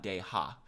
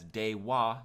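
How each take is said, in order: First: The second syllable begins with an h sound. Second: The second syllable begins with a w sound. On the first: The speaker calls it wrong. "not de-ha" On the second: The speaker calls it right. "make sure you read it as Dewa"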